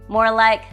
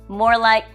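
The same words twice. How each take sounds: The two takes are said the same way.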